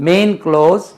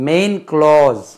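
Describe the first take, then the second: The two takes are said the same way.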